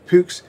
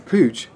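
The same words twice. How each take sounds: First: The name has a German-style pronunciation. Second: The name has an English-style pronunciation. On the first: This is the original, correct way of saying it. The speaker calls it right. "German pronunciation" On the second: This is the habitual British way of saying it. The speaker calls it wrong. "I'm pronouncing the bike as Puch... not the correct pronunciation"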